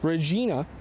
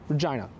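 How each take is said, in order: First: It is said with the classical Latin pronunciation. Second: It is said with English shifted vowels. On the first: "the Latin pronunciation" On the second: "as vowels started shifting during the fourteen hundreds in England"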